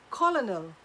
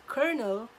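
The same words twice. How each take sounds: First: Colonel read as spelled, "KOL-oh-nel", every letter sounded; wrong colonel. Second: Colonel said as "kernel", no L sound, stress on the first syllable; correct colonel. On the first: Retold or imitated. Student misreading the word aloud, colonel as "kol-oh-nel". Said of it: "boy who pronounced the word". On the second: Shown as a demonstration. Teacher giving the correct word in reading class, colonel said as "kernel". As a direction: colonel spoken the right way, like "KER-nul". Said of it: "It is pronounced as colonel".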